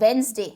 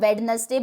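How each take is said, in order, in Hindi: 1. बीच वाला d silent है। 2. बीच वाला d बोला जाता है। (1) "डी साइलेंट रहेगा, ये बोला जाता है वेंसडे" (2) "इसको कई बार हम वेडनेसडे बोलते हैं"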